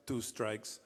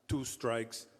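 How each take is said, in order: Both takes have the same delivery.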